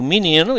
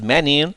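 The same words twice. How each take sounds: First: The first vowel sounds like an i. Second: The first vowel sounds like an e. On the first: "mas eu digo menino, e muitos dizem também" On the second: "tem gente que diz menino"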